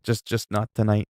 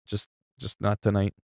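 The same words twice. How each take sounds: First: Said in the usual way. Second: Softer repeat, trailing off; quiet. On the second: Real, not acted. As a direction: say it again under your breath.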